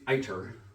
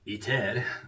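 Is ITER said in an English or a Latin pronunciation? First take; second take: English; Latin. First: The name is said with an English pronunciation. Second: The name is said with a Latin pronunciation. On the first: "I call it" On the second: "the Latin pronunciation would be ITER"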